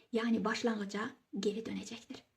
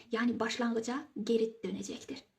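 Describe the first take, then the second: Both takes have the same delivery.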